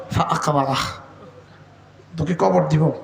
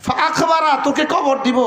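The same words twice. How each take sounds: First: Deep solemn threat. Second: Higher, emphatic warning; raised declaration. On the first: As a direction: say it low and heavy like a verdict. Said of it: "তো আল্লাহ তাআলা বলেন". (নিচু গম্ভীর সুরে সতর্কবাণী) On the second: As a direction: proclaim it up high to the crowd. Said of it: "বলেন, সত্য না মিথ্যা?". (উঁচু জোরালো ঘোষণার সুরে) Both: Acted.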